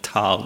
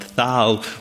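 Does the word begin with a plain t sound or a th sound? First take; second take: t; th. First: The word begins with a plain t sound. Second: The word begins with a th sound. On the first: The speaker calls it right. "there we call it Tal" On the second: The speaker calls it wrong. "not Thal"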